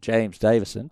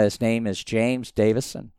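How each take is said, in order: First: Name said in an Australian accent. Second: Said in the usual way. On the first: Shown as a demonstration. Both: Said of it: "I'll do it in my best Australian accent".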